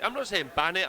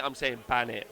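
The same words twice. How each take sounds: First: Not saying, with "not" stressed and rising. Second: "ban" hit hard with a falling tune; stress on BAN. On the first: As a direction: lean on "not". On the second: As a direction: punch the word "ban". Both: Shown as a demonstration.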